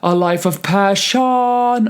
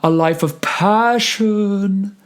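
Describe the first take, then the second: First: The second syllable of passion is given weight. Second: The second syllable of passion is reduced. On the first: The speaker calls it wrong. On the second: The speaker calls it right.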